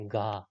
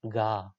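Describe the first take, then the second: First: The first consonant is voiced, with vibration. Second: The first consonant is voiced, with vibration.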